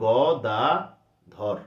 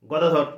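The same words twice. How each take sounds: First: গদাধর in three separate, drawn-out syllables; teacher sounding out গদাধর part by part; split into syllables. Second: Said in the usual way. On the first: Shown as a demonstration. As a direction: break গদাধর slowly into গ, দা, ধর. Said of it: "এই তিনটে অংশ তোমাকে বলতে হচ্ছে". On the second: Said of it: "যতই তুমি তাড়াতাড়ি বলো".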